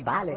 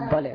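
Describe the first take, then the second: First: The first vowel sounds like 'a'. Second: The first vowel sounds like 'o'. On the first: The speaker calls it wrong. "не Бали" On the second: The speaker calls it right. "а Боли"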